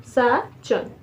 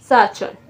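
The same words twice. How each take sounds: First: Sachan split sa, pause, chon; teacher separating the syllables of Sachan. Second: Said in the usual way. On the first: Shown as a demonstration. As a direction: clear gap inside Sachan. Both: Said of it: "तीन तीन syllable बने हैं".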